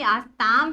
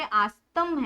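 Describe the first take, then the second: First: आस्ताम with a long aa in the last syllable; long-vowel ending. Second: आस्तम with a short a in the last syllable, slowly; short-vowel ending. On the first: Teacher contrasting two verb endings, आस्ताम with long final vowel. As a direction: draw out the ताम of आस्ताम. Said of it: "यहाँ पे देखो, यहाँ पे आस्ताम है". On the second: Teacher contrasting two verb endings, आस्तम with short final vowel. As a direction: split slowly as आस्-तम, vowel kept short in तम. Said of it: "यहाँ पे आस्तम है". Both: Shown as a demonstration.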